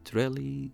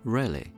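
First: The word ends in a clear 'ee' vowel. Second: The word ends in an 'uh'-like vowel. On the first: "الياء أو الإي في آخر الكلمات" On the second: "بدلا من الإي اللي في آخر الصوت حتنطقها بشيء زي الأ"

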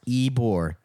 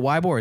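First: The name begins with an ee sound. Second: The name begins with a w sound. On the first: This is how locals say it. The speaker calls it right. "it's Ebor" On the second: This is how outsiders say it. The speaker calls it wrong. "all the fucking normies who don't know how to say it right, they're just like"

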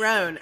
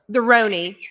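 First: The name ends without an 'ee' vowel. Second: The name ends with an 'ee' vowel. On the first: The speaker calls it right. "Oh, it's Rone" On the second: The speaker calls it wrong. "We're saying it wrong"

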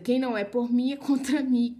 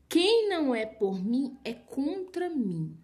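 First: It is said at a normal pace. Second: It is said slowly and deliberately.

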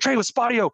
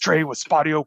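First: It is said with very high, excited energy. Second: It is said in a flat, blunt, direct manner. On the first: This calling style did not work. "we had some reps that were overexcited, ... really high energy" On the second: This calling style comes across as blunt. "We had some that were just very direct"

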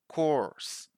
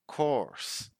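First: It is said in an American accent with an R sound. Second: The same.

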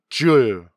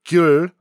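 First: It is said in Gyeongsang dialect with J. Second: It is said in Standard Korean with G.

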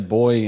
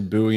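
First: Buoy is said the Australian way. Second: Buoy is said the American way.

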